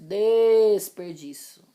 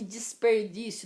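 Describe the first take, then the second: First: The first vowel sounds like an e. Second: The first vowel sounds like an i. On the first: The speaker calls it right. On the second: The speaker calls it wrong.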